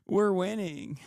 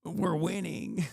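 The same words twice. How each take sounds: First: Higher, slow, breaking into laughter; can't keep a straight face on the boast; laughing mock triumph. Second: Slow, higher sarcastic boast; drawn-out ironic victory line; mock triumph. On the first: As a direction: laugh through the ironic slogan. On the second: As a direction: sneer the fans' slogan back at them. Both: Mocking fans' triumph.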